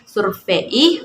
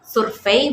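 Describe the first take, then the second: First: The final vowels are split into two syllables. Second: The final vowels glide together in one syllable. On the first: The speaker calls it wrong. "bukan survei" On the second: The speaker calls it right. "Diftong ei seperti survei"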